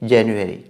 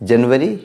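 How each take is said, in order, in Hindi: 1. यह शब्द English accent में बोला गया है। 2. यह शब्द हिंदी एक्सेंट में बोला गया है। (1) "इंग्लिश एक्सेंट क्या है" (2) "जनवरी हिंदी एक्सेंट है"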